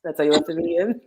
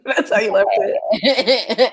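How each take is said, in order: First: Said in the usual way. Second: Slow, laughing repeat of the question; laughing disbelief. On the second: Real, not acted. Cohost laughing at the friend who left it that way. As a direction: laugh through the words in disbelief.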